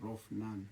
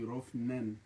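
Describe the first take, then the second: First: The name ends with a 'nan' sound. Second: The name ends with a 'nen' sound. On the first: This is how the father says the name. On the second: This is how the mother says the name.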